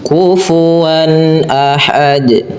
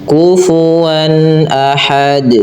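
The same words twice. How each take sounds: The two takes are said the same way.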